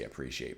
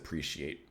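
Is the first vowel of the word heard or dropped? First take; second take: heard; dropped. First: The opening vowel sound is clearly pronounced. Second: The opening vowel sound is left out. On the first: The speaker calls it right. "usually I do say appreciate" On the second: The speaker calls it wrong. "I just like said appreciate"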